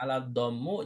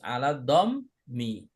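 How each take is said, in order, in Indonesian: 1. Kata terakhir diakhiri dengan vokal u. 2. Kata terakhir diakhiri dengan vokal i. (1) "jangan ala dhammu" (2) "Ini harus ala dhammi"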